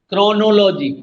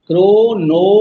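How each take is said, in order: First: Said in the usual way. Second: chronology louder, as "क्रो-नो-लॉ-जी"; syllable by syllable. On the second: Shown as a demonstration. Teacher counting syllables for students, chronology in four loud beats. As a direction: sound out each syllable of chronology firmly. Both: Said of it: "पांच बार कौन सा बोलेगा".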